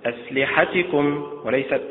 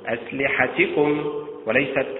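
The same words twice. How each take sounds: The two takes are said the same way.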